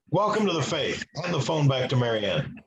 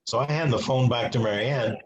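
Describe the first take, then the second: First: Lightly voiced booming priest, barely louder; a hint of a hard-of-hearing priest calling down the line; a mock priest who talks loud, not really loud; imitating a loud priest. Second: Said in the usual way. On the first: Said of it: "So he talks really loud".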